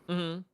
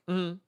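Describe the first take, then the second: Both takes have the same delivery.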